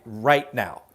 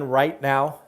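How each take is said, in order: First: RIGHT drawn out slowly in "right now"; emphatic RIGHT. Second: Said in the usual way. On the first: Real, not acted. Host pinning the market down to this moment, slow stress on RIGHT. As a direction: stretch the word right, then let now fall.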